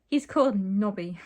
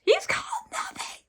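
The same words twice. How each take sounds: First: Loud, fully voiced exclamation; mild acted scream. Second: Very high, strained squeal of a scream; failed scream. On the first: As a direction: announce it loudly, short of a scream. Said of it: "Titania screamed". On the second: Acted. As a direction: attempt a scream with hardly any voice. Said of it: "I can't scream".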